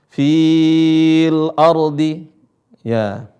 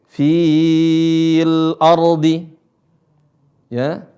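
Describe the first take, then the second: No difference in how they are said.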